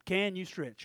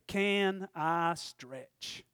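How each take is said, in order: First: Said in the usual way. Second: Very slow title. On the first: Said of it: "How about that?". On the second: Shown as a demonstration. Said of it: "So you wanna title this up".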